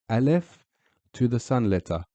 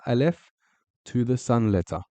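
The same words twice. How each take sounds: The two takes are said the same way.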